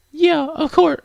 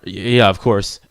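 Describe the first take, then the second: First: Very high, girlish put-on voice; high-pitched game girl voice; high girl character. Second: Lower, everyday character voice; stammered start, then low reply; low-voiced protagonist. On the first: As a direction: answer in a high anime-girl falsetto. Wrong character's voice, then redone lower. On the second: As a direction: answer in the plainer, lower voice. Redoes line in lower character voice.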